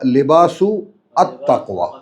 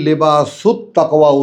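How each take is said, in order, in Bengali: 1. আর্টিকেলটি প্রথম শব্দ থেকে আলাদা করে বলা হয়। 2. আর্টিকেলটি প্রথম শব্দের সাথে মিশে যায়। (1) "আর আমরা কি বলি?" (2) "এখন তুমি যদি লেবাসুত তাকওয়া উচ্চারণ করো"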